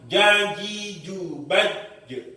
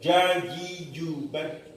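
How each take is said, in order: First: The final echo comes after a delay. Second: The final echo is dropped entirely. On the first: "bukan jajiju baju. Ya itu telat" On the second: "Pantulannya hilang karena terlalu apa namanya terlalu hati-hati"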